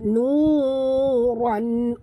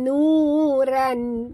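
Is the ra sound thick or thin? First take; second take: thick; thin. First: The ra sound is thick and heavy. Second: The ra sound is thin and light. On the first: The speaker calls it right. "tapi kena tebal" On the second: The speaker calls it wrong. "Bukan nuran"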